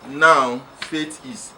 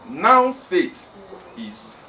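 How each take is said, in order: First: There is a pause after "now". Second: "Now faith" is said without a pause.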